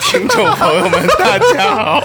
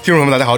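First: It is said in a pinched, affected voice. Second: It is said in a plain, natural voice.

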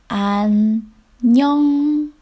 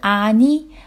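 First: The final nasal consonants are clearly pronounced. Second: The final nasal consonants are dropped. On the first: The speaker calls it right. "所以读的时候一定要读成안녕" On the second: The speaker calls it wrong. "而不是아니"

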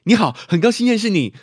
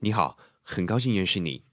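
First: A high, loud, clipped young-sounding voice. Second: A medium-pitched, medium-paced mature voice.

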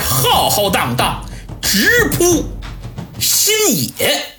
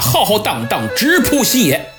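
First: The final word is stretched out long. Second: The final word is cut off short. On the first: The episode is ending with a pause. The speaker calls it right. "结尾必须要拉长声停顿一下才行" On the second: The episode ends abruptly. The speaker calls it wrong. "我要是不拉长声这么结尾"

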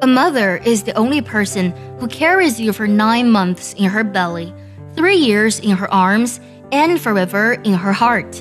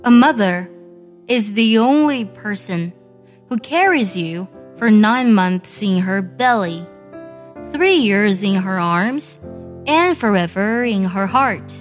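First: It is read at normal speed. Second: It is read slowly.

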